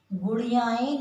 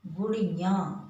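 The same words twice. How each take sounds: First: गुड़ियाएँ with the wrong ending एँ; wrong form shown. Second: गुड़ियाँ with a nasal ending; the corrected model गुड़ियाँ; correct form. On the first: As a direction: say गुड़ियाएँ as the mistake to avoid. (गलत रूप गुड़ियाएँ) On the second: (सही रूप गुड़ियाँ) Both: Shown as a demonstration. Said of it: "नहीं बोलेंगे हम".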